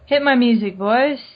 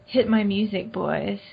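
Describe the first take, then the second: First: It is said in a plain voice. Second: It is said in a sultry voice.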